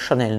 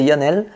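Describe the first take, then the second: First: The name begins with a 'sh' sound. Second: The name begins with a 'y' sound. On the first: This is how Argentine speakers pronounce it. "elle prononçait son nom euh, Chanel" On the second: This is the name's usual pronunciation. "en vrai son nom c'est Yannel"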